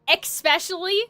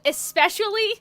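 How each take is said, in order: First: The first syllable has a K sound. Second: The first syllable has no K sound.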